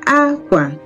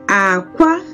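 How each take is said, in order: First: The pitch starts high, then goes low. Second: The pitch starts low, then goes high. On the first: It means cloth. "High, low" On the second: It means egg. "it started low... and then it went off high"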